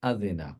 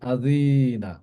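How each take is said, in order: First: The vowel is kept short. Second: The vowel is drawn out long. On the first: The speaker calls it right. "একইভাবে" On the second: The speaker calls it wrong. "আমরা এইভাবে যেন না বলি"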